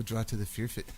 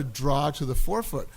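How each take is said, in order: First: "Fearfoot" said for four foot, Scottish-style; Scottish vowels. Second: Said in the usual way. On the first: Retold or imitated. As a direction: imitate a Scot turning "four" into "Fearfoot". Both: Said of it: "And he kept saying".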